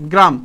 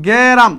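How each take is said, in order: First: Said in the usual way. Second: গেরাম stretched slowly, with a vowel between g and r; sounded out. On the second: Shown as a demonstration. Teacher spelling the word in Banglish, sounding out গেরাম slowly as "ge-raam".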